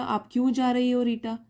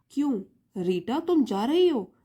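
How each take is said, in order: First: 'आप क्यों जा रही हो' in one level run; no break after 'क्यों', carry on to Rita; one continuous question. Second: 'क्यों', pause, then 'तुम जा रही हो' as its own question; split into two questions. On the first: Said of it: "दोनों का meaning थोड़ा different है". ('आप क्यों जा रही हो, रीटा' बिना रुके) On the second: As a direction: stop after 'क्यों', swing the tune up on 'जा रही हो'. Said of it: "दोनों का थोड़ा सा डिफरेंस अलग हो गया". ('क्यों' पर रुककर 'जा रही हो' अलग सवाल) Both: Shown as a demonstration.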